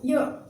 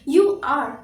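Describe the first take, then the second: First: It is said as one contracted syllable. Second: It is said as two separate full words. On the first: "contraction में इसको क्या बोलेंगे" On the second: "ये तो बहुत ही common हम लोग यूज करते हैं"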